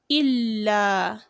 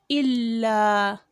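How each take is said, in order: Both takes have the same delivery.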